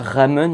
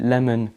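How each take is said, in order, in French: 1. Le mot commence par un son R. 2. Le mot commence par un son L. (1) "On dit pas ramen" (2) "ça se prononce L. ... on dit lamon"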